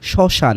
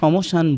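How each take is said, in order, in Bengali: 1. শব্দটি 'm' ধ্বনি ছাড়া উচ্চারিত হয়। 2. শব্দটি 'm' ধ্বনি সহ উচ্চারিত হয়। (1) "শুধু হবে কি শ্মশান।" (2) "আমরা সমশান বলছি না।"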